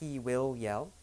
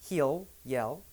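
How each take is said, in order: First: Will is said as a full separate word. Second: Will is reduced and joined onto he. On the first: The speaker calls it wrong. "not he will yell" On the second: The speaker calls it right.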